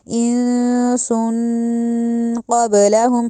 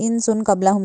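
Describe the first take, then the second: First: The n and s carry a nasal hum. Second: The n and s are plain, without nasal hum. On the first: The speaker calls it right. "नून और सीन दोनों पे गुन्ना होगा" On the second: The speaker calls it wrong. "नहीं कह देना"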